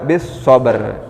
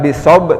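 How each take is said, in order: First: The phrase ends with a clear r sound. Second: The phrase ends without any r sound. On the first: The speaker calls it right. "ro-nya juga" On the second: The speaker calls it wrong.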